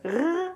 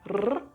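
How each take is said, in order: First: The R is a German-style sound. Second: The R is rolled with a trilled tongue. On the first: "R like in German" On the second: "rolled like R"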